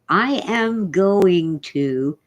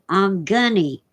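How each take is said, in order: First: Every word is said fully and separately. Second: It is slurred further into 'I'm gunny'. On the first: The speaker calls it right. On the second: The speaker calls it wrong.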